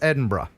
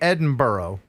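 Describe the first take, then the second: First: Edinburgh is pronounced with the local pronunciation. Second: Edinburgh is pronounced with an American pronunciation. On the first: The speaker calls it right. "but it's" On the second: The speaker calls it wrong. "An American would say"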